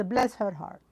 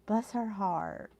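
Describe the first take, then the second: First: Said in the usual way. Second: "Bless her heart." drawn out slow and soft, falling on "Bless"; soft and slow, sympathetic, leaning on "Bless"; slow knowing "bless her heart". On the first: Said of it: "She says". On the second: Shown as a demonstration. Repeating what a friend typed in the chat, slow and soft, stressing "Bless". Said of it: "She says, "Bless her heart".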